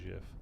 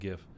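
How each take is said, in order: First: The word begins with a j sound. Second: The word begins with a hard g sound. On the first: The speaker calls it wrong. "I'm not ever saying GIF. GIF is peanut butter" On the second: The speaker calls it right. "I definitely say GIF"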